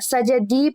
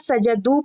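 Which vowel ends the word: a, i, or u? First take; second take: i; u. First: The word ends with an 'i' vowel. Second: The word ends with a 'u' vowel. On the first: "सजदी पढ़ दिया" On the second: "सजदू पढ़ दिया"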